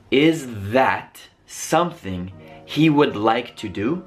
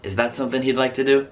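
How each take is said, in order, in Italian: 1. La parola would si pronuncia per esteso. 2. La parola would si contrae in 'd.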